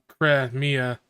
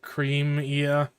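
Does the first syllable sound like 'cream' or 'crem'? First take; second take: crem; cream. First: The first syllable does not sound like 'cream'. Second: The first syllable sounds like 'cream'. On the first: The speaker calls it right. "it's pronounced Cremia" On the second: The speaker calls it wrong. "I always pronounced it Creamia"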